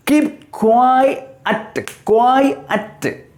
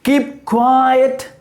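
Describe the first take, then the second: First: QUIET split as "kwai, at", pitched higher; QUIET in two syllables. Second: QUIET drawn as "kwai-et", pitched higher; two-syllable QUIET. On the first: Teacher showing students two syllables, QUIET split high into "kwai, at". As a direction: break QUIET sharply into two beats. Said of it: "has got two syllables". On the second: Teacher modelling pronunciation, QUIET higher pitched as a joined "kwai-et". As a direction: sound both vowels of QUIET, held high. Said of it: "How do you pronounce it?". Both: Shown as a demonstration.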